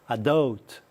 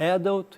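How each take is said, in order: First: It is said with American stress placement. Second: It is said with British stress placement. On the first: "Inglês, americano" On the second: "Inglês, britânico"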